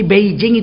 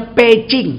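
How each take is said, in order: First: "Beijing" with voiced B and J; written-form pronunciation. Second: "Pecing" with P and ch; corrected pronunciation. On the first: Preacher quotes the written name before correcting it, as-spelt pronunciation. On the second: Preacher gives the correct reading to listeners, corrected pronunciation. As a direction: say "Pecing", stressing the P and ch. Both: Shown as a demonstration. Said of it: "Beijing itu bacanya Pecing".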